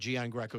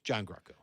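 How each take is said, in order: First: The name is said with anglicized pronunciation. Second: The name is said with Italian pronunciation. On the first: This is how the family has always said it. The speaker calls it wrong. "we've mis- been mispronouncing our name forever. ... It's not Gian Greco" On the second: This is how the name is said in Italy. The speaker calls it right. "It's John Greco, really. ... but in Italy"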